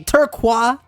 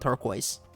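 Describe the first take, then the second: First: The word is said with a French pronunciation. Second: The word is said with an English pronunciation. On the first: It is meant as a French name. The speaker calls it right. "They're all pronounced that way because they're supposed to be French" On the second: It is read as the ordinary English word. The speaker calls it wrong. "sounds more like a name than turquoise"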